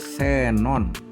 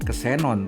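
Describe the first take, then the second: First: The word begins with an s sound. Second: The word begins with a ks sound. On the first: The speaker calls it right. "diucapkan sebagai S" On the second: The speaker calls it wrong. "bukan kesenon"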